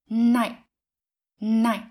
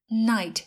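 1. Âm t cuối bị chặn lại ở cổ họng. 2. Âm t cuối được bật ra kèm một luồng hơi. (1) "chúng ta sẽ chặn hơi ở cổ họng" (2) "thay vì"

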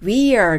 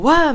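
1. 両方の単語を、はっきり別々に言います。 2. とても速く言って、一つにくっつけて言います。

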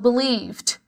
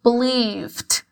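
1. A terminação é só um estalo curto no final. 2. A terminação é só um estalo curto no final.

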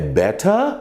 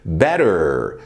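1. O t do meio é um som de t nítido. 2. O t do meio soa como um r rápido. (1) "better no britânico" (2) "better no americano"

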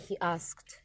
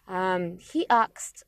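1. Звук s идёт перед звуком k. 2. Звук k идёт перед звуком s. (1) "а не he asked" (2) "говорят"

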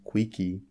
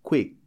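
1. Uma vogal extra 'ee' vem depois do k final. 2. A palavra para bruscamente no k final. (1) "o cuidado de não pronunciar com o Y no final, que ficaria" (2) "Também vou pronunciar de forma seca"

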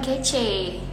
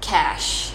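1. Kata itu berakhir dengan bunyi ay. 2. Kata itu berakhir dengan bunyi sh. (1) "Bukan kece ya" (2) "jawabannya benar adalah cash"

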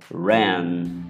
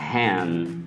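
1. O primeiro som é um r inglês rosnado. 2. O primeiro som é suave, parecido com um h. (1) "o correto seria" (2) "o brasileiro acaba falando"

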